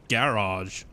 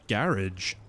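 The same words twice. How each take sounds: First: The ending does not sound like 'patronage'. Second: The ending sounds like the end of 'patronage'. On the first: "we stress the first syllable with, like, garage" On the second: "people U K say garage. ... Like patronage"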